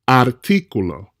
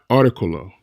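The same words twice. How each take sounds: First: The stress is on the second syllable. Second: The stress is on the third syllable. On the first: The speaker calls it right. "hit that stress point where the accent mark or tilde lies" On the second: The speaker calls it wrong. "not articulo. Articulo doesn't exist in Spanish"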